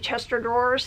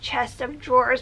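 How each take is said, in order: First: The word 'of' merges, sounding like 'Chester'. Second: The word 'of' is pronounced clearly and separately. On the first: This is how everyone around here says it. "but we all say Chester drawers" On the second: This is what the phrase actually is. "It was chest of drawers"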